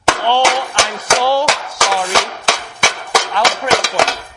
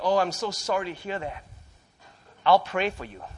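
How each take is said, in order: First: It is said in a loud, harsh, jarring voice. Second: It is said in a pleasant, wonderful-sounding voice.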